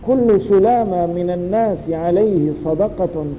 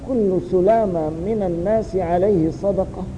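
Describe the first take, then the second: First: The sentence carries on without closing. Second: The sentence closes with a final stop. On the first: The charity is due on every day the sun rises. "كل يوم تطلع فيه الشمس. هنا تنتهي الجملة" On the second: The sentence ends here and a new statement begins. "وتنتهي الجملة عند هذا الحد"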